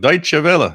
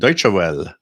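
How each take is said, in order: First: The name is said with German pronunciation. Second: The name is read aloud as English spelling. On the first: The speaker calls it right. "that's how you pronounce that word" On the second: The speaker calls it wrong. "I was always looking at like"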